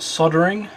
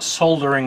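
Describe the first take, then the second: First: American style, with the L silent. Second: Australian style, with the L pronounced.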